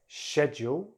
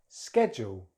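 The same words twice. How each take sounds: First: It is said with a British accent. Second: It is said with an American accent. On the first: "in British English" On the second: "then American English"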